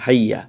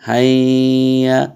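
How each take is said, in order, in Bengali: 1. এই শব্দের স্বরধ্বনিগুলো ছোট রাখা হয়। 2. এই শব্দের স্বরধ্বনিগুলো টেনে দীর্ঘ করে উচ্চারণ করা হয়। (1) "কোনো টানও নাই, নর্মাল" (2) "অনেকে আছেন টান দেয়, হাইয়া হাইয়া এমন করে"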